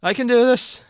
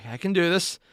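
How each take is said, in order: First: Loud, high self pep talk; forced determination. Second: Said in the usual way. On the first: Real, not acted. Reader steeling self to continue, loudly determined. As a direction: psych yourself up loudly.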